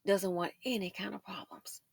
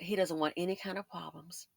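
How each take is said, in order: First: Whispered repeat, no voice at all. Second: Said in the usual way. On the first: Shown as a demonstration. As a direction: breathe the line as a secret aside. Whispered repeat of previous line.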